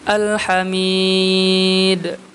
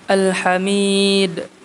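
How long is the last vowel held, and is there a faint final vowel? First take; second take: medium hold; short hold. First: The long vowel is held moderately, ending in silence. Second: The long vowel is held briefly, ending in silence. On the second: "dengan mad aridi sukunnya dua"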